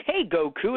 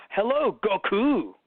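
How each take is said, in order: First: Said in the usual way. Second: Slow, stiff formal Hello, Goku; formal greeting. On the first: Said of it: "no one would look at Goku and be like". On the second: Retold or imitated. Dub actor greeting Goku, slow stiff formal. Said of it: "It'd be like".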